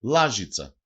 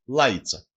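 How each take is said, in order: First: Said in the usual way. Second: Λάιτσα with the zh sound dropped; dialect pronunciation. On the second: Shown as a demonstration. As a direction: say λάιτσα as laitsa, gliding from a to i. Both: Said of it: "Προφέρεται και ως".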